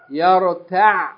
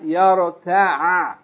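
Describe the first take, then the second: First: The word stops on a clipped ayn without vowel. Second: The final ayn is fully sounded with a vowel. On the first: The final letter has sukoon. The speaker calls it right. "we're going to stop on the ayn without pronouncing it fully" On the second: The final letter carries a vowel. The speaker calls it wrong.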